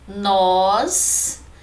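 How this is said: The word is said strongly, with stress. "Nós é monossílabo forte, monossílabo tônico"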